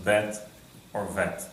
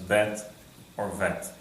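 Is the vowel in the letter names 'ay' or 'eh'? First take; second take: eh; eh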